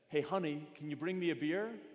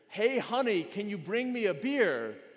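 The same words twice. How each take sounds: First: It is said at normal volume. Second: It is shouted very loudly.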